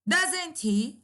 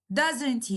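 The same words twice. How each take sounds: First: "Doesn't he?" as a rising question tag; rising intonation. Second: "Doesn't he?" dropping in pitch to the end; falling intonation. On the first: Teacher demonstrates going up on the tag, rising intonation. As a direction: send "Doesn't he?" upward, really asking. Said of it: "So it is rising intonation". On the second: Teacher demonstrates going down on the tag, falling intonation. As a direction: let "he" fall, no real question. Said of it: "is falling". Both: Shown as a demonstration.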